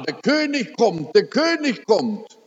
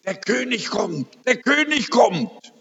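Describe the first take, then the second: First: High, eager announcement; wife repeating the King is coming, excited. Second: Higher, rising excitement; dying wife announcing the King is coming, excited. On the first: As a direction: call it out with wonder. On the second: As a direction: announce it with eager wonder. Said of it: "sagt ganz aufgeregt". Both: Retold or imitated.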